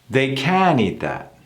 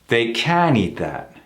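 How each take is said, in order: No difference in how they are said.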